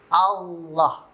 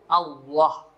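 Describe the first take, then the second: First: The vowel after the l is open, with thick l. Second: The vowel after the l is rounded like w. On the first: The speaker calls it right. "Jadi mulutnya jangan ditutup" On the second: The speaker calls it wrong. "Lafaz Allah berubah menjadi bunyi waw"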